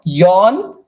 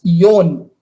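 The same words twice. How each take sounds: First: "yon" with open aw vowel, rising; wrong open vowel. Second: "yon" with closed, rounded o, falling; correct long o. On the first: Teacher repeating what not to say for four, open-vowelled "yon". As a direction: mispronounce "yon" to rhyme with "yawn". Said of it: "it's not yon". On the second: Teacher repeating the right word for four, rounded-o "yon". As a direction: give "yon" a pure long o. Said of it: "it's yon". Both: Shown as a demonstration.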